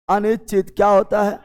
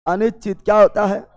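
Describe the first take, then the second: No difference in how they are said.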